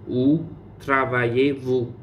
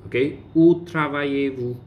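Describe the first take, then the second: First: Où travaillez-vous said slowly and evenly; slow model. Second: Said in the usual way. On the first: Shown as a demonstration. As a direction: spell it out slowly for the class. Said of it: "teacher repeats slowly". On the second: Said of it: "teacher models question".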